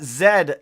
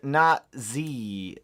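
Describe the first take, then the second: First: The letter is said as 'zed'. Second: The letter is said as 'zee'. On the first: The speaker calls it right. "Zed, not Z" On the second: The speaker calls it wrong.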